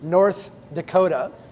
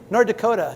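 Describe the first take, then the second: First: The words are carefully enunciated without a regional accent. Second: The words are said in a strong Minnesotan accent. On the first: "I'm going to enunciate again for all of you" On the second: "That's that's just how we say it"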